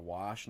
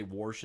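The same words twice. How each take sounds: First: Said in the usual way. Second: "warsh" with an R put in before the sh; regional pronunciation. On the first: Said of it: "instead of "wash". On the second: Shown as a demonstration. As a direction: say "warsh" as "worsh", rhotic vowel. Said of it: "when people say "warsh" instead of "wash".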